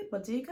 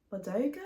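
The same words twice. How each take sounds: First: Bardugo said as BAH-doo-g, clipped with a rising tone; retry Bardugo with a broader first vowel, still questioning; second try at pronunciation. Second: Bardugo said as bə-DOO-go, rising as if asking; tentative, questioning Bardugo, stress on the middle syllable; unsure pronunciation. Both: Shown as a demonstration. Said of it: "I'm not sure if I'm saying that right".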